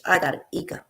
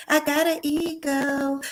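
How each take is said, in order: First: Said in the usual way. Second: Drawn-out, higher, proud; slow proud boast. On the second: Real, not acted. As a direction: savor each word, slowly.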